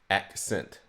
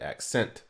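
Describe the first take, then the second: First: The first syllable is high, the second low. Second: The first syllable is low, the second high. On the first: The speaker calls it right. "high, low" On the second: The speaker calls it wrong. "You don't go low, high on the word accent"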